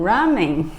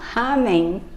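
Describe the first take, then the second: First: It is said the way Americans say it. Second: It is said the way Brazilians say it. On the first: "os americanos falam ramen" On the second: "os brasileiros falam ramen"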